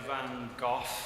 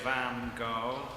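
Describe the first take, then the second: First: It is said in the speaker's usual way. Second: It is said the way Americans say it. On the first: "I always say" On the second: "The Americans say"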